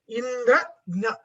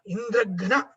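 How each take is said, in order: First: The stress is on the first part, Indra. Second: The stress is on the last part, gna.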